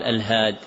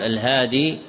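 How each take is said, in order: First: "الهاد" cut short on the d, no ī; without final ya. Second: "الهادي" ending in a long ī; with final ya. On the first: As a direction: drop the ya: "الهاد". ("الهاد" بحذف الياء) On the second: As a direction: keep the ya at the end of "الهادي". ("الهادي" بإثبات الياء) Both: Shown as a demonstration. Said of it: "بإثبات الياء وبإسقاطها".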